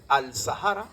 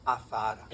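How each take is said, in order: First: "al Sahara" slowly, with the l sounded; article fully pronounced. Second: "a Zahara" run together with no l; assimilated article. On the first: Lecturer contrasting spelling and sound for students, sounded l. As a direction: keep the l in "al Sahara". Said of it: "tú dices al Sahara". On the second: Lecturer showing what is really said, swallowed l. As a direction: drop the l, lengthening into "a Zahara". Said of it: "en realidad estás diciendo". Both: Shown as a demonstration.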